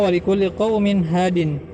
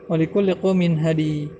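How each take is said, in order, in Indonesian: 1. Kata terakhir berakhir dengan bunyi n. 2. Kata terakhir berakhir dengan vokal i panjang.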